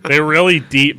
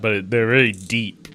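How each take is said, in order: First: REALLY punched louder; emphatic. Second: Said in the usual way. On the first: Shown as a demonstration. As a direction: hit "really" hard and loud.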